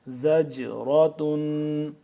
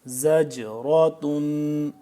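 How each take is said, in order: The two takes are said the same way.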